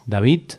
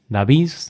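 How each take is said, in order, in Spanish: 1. La D final suena como una T. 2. La D final suena como una Z. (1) "podría pronunciarse como sonido T" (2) "la D se pronuncie como sonido Z"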